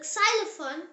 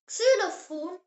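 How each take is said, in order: First: "xylophone" with a "zy" opening, as in English; English pronunciation. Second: "Xylophon" with a "ksü" opening, as in German; German pronunciation. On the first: Teacher translates the example word, English pronunciation. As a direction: say "xylophone" as English "zai-luh-fone". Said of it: "Yes, it is xylophone". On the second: Teacher gives the German example word, German pronunciation. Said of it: "The example word is Xylophone". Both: Shown as a demonstration.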